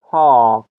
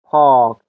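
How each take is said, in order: Both takes have the same delivery.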